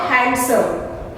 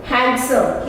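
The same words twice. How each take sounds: First: "handsome" with the d sounded, hand-some; mispronounced handsome. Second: Said in the usual way. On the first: Shown as a demonstration. Teacher showing learners the mistake, d sounded in "handsome". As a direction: wrongly pronounce the d in "handsome". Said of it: "not handsome". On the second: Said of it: "not handsome, handsome".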